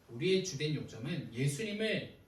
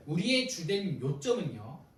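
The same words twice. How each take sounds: First: Said in the usual way. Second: 우리의 주된 요점은요 said slowly and a little louder, leaning on 우리의; preacher's deliberate first take, 우리의 stressed; slow emphatic restart. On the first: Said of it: "repeats phrase, normal pace". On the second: Shown as a demonstration. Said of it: "repeats phrase, slower and louder".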